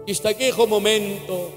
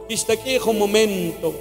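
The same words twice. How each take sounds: The two takes are said the same way.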